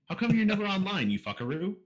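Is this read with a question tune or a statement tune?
question. It is read with a questioning tune. The speaker calls it right.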